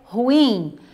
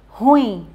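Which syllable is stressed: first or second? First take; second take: second; first. First: The stress falls on the second syllable. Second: The stress falls on the first syllable. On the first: The speaker calls it right. "A pronúncia correta é ruim. a sílaba forte fica no in e não no ru" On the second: The speaker calls it wrong. "muitas pessoas, elas falam ruim e não é a pronúncia correta"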